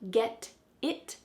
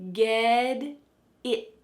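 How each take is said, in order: First: The T in get is a clear T. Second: The T in get sounds like a D. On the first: The speaker calls it wrong. "Not get it" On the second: The speaker calls it right. "but ged"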